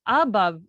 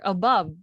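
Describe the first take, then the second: First: "Above" as AH-buv, weight on the first syllable; wrong-syllable stress. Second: "above" as uh-BUV, weight on the end; second-syllable stress. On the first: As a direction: punch the A at the start of "Above". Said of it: "how do we pronounce it?". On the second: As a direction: keep the a weak, stress BOVE in "above". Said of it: "the stress is on the se". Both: Shown as a demonstration.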